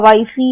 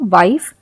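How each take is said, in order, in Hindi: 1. f के बाद एक अतिरिक्त ee स्वर बोला जाता है। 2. शब्द f पर बिना किसी स्वर के खत्म होता है। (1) "हमने ऐसा हम इसे नहीं पढ़ते हैं" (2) "हम इसे पढ़ते हैं वाइफ"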